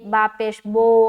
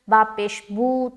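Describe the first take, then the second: First: The final vowel is an Urdu-style 'o' sound. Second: The final vowel is a pure long 'oo' sound. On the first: The speaker calls it wrong. "मजहूल पढ़ा है" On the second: The speaker calls it right. "इसको दुरुस्त करें"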